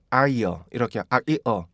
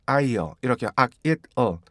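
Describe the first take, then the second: No difference in how they are said.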